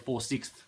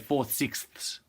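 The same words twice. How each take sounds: First: The last word ends without an s sound. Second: The last word ends with an s sound. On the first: The speaker calls it wrong. "we can't say four sixths" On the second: The speaker calls it right. "you put the S on the end"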